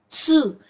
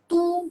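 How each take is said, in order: First: It starts with a ts sound. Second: It starts with a plain t sound. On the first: The speaker calls it right. "but tsu. Between T and S" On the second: The speaker calls it wrong. "not tu"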